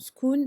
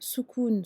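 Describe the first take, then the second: First: The word is said without its first vowel. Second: The word is said with its first vowel. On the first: "croquer euh, sur le mot soukoun" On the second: "sur le mot soukoun"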